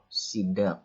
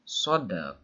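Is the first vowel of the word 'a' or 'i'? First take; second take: i; a. First: The first vowel is a close 'i' sound. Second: The first vowel is an open 'a' sound. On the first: The speaker calls it wrong. "dibaca kasroh" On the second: The speaker calls it right. "dengan dibaca fathah sodnya itu lebih fasih, lebih benar"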